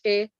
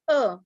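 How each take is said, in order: First: The letter is said as its alphabet name. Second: The letter is said as its spoken sound. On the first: "We are calling it A" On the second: "but its pronunciation is A"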